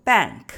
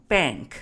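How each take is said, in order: First: "bank" the way it was taught in China, a touch louder; classroom pronunciation. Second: "bank" the way Americans actually say it; American pronunciation. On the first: Retold or imitated. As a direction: say "bank" like the school textbook version. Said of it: "我们在中国学习的时候". (按国内课堂学的方式念"bank") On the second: Shown as a demonstration. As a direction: model the everyday American "bank". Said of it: "我一到美国就发现大家是用bank". (按美国人日常的方式念"bank")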